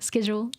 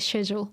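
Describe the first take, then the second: First: It is said with a non-British pronunciation. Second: It is said with a British pronunciation. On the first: "but uh, schedule" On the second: "in British English, we say schedule"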